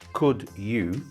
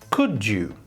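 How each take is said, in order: First: The d and y sounds stay separate. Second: The d and y merge into j. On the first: The speaker calls it wrong. "we don't say could you" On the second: The speaker calls it right. "we say could you"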